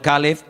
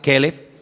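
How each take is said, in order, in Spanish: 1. La primera vocal es un sonido de a abierta. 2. La primera vocal es un sonido de e. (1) "Caleb es para el hombre, para un nombre propio" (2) "si quieres llamar al perro, le llamas Kelev"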